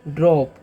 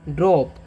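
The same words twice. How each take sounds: No difference in how they are said.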